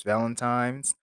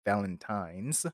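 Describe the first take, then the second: First: "Valentine's" said as Valentimes, with an m before the s; "Valentine's" blurred into Valentimes; slip of the tongue. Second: "Valentine's" said again carefully, ending in a clear n; slower, careful fix of "Valentine's"; corrected pronunciation. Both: Real, not acted. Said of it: "sorry, Valentine's".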